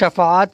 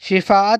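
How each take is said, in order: First: The first vowel is an 'a' sound. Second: The first vowel is an 'i' sound. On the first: The speaker calls it right. "शफ़ाअत कहेंगे" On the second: The speaker calls it wrong. "शिफ़ाअत नहीं कहेंगे"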